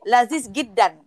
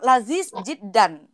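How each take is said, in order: First: The second word starts with a hard G sound. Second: The second word starts with a J sound. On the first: This is the Egyptian way of saying it. "kalau Mesir itu J bisa jadi G" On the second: This is the Saudi way of saying it.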